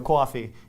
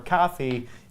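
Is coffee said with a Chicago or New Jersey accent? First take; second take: New Jersey; Chicago. First: Coffee is said with a New Jersey accent. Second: Coffee is said with a Chicago accent.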